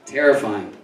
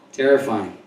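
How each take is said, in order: Both takes have the same delivery.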